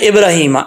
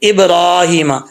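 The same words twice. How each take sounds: First: The vowel after r is kept short. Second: The vowel after r is held long. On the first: The speaker calls it wrong. "अब लोग पढ़ते हैं इब्राहिमा, ऐसे नहीं पढ़ना" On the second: The speaker calls it right. "इब्राहिमा कैसे पढ़ेंगे?"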